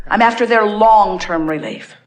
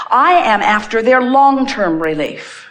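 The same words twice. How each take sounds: First: Said in the usual way. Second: Each word laid down slowly, stress on I; firm and deliberate, leaning on I; slow, emphatic. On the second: Shown as a demonstration. Insisting to the audience, slow and weighty.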